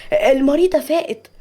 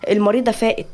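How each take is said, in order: First: Higher-pitched happy announcement; glad, raised-pitch nurse; joyful. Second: Said in the usual way. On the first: Acted. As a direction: break the good news with delight. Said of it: "الممرضة بفرحة".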